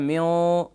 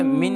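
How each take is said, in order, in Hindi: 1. अंतिम नासिका भारी और खिंची हुई है। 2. अंतिम नासिका हल्की और छोटी है। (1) "ये थोड़ा सा हैवी गुन्ना हो गया" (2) "मिन नॉर्मल गुन्ना"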